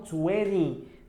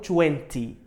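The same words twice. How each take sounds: First: It is said in an American accent. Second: It is said in a British accent. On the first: "Normalmente os americanos falam twenty, fala esse som do ri" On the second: "Os britânicos falam twenty"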